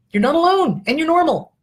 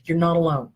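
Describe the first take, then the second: First: Higher, louder insistence on alone; emphatic reassurance. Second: Said in the usual way. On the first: Real, not acted. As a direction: lift it up and press the message home. Reassuring viewers, emphatic repeat.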